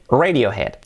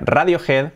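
First: It is said with an English pronunciation. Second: It is said with a Spanish pronunciation. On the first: The speaker calls it right. "Pues se dice Radiohead" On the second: The speaker calls it wrong. "como decimos aquí"

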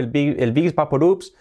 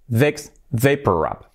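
First: It is said with a Spanish-style pronunciation. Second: It is said the English way, ending in b. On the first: The speaker calls it wrong. "toda la vida pronunciando el Vicks Vaporub" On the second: The speaker calls it right. "al final es Vicks Vaporub. Vaporub, acabado en B"

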